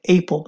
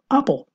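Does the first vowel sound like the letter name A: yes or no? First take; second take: yes; no. First: The first vowel sounds like the letter name A. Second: The first vowel is the short a sound. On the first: The speaker calls it wrong. "la manzana no se dice apple" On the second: The speaker calls it right. "sino apple"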